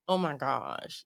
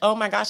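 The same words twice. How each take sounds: First: It sounds sassy, like talking back. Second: It sounds genuinely surprised.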